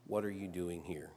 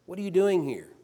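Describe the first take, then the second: First: Much softer and lower, near a hush; still small voice. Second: Loud, higher voice of God, stress on doing; booming call. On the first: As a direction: let the question fall to a gentle murmur. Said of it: "a still small voice said". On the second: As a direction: call it out like thunder from the mountain. God calls out to Elijah. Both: Acted.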